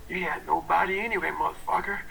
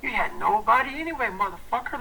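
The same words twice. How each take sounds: First: Gruff self-talk. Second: Fired-up self-talk. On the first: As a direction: mutter the taunt to yourself. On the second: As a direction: spit it at yourself to get fired up. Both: Retold or imitated. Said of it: "see how I'm talking myself".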